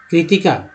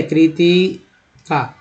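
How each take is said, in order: First: Said in the usual way. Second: Kritika drawn out slowly, syllable by syllable; slow spelling-out. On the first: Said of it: "मान लीजिए मैंने लिखा है". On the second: Shown as a demonstration. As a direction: stretch Kritika out slowly for the class. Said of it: "ठीक है, कृतिका".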